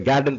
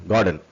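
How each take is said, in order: First: கார்டன் said as "GAD-den"; wrong first vowel. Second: கார்டன் with a long "gaa"; correct first vowel. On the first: Teacher shows learners the wrong reading, "gae" vowel. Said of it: "படிக்கக்கூடாது". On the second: Teacher corrects the reading for learners, "gaa" vowel. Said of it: "அதே கார்டன் படிக்கக்கூடாது". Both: Shown as a demonstration.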